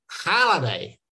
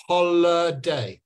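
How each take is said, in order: First: Holiday with a flat American "hal" vowel. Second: Holiday with a rounded British "hol", said slowly; holiday, British vowel. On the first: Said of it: "They say". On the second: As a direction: say holiday the UK way, slow and clear. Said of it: "it says". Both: Shown as a demonstration.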